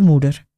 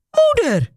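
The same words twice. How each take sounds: First: Said in the usual way. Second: High, sudden call of Moeder, falling at the end; Hilly sees her mother at the door, startled call; startled cry. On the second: A narrator's reading. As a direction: blurt out Moeder in alarm. Daughter sees mother arrive.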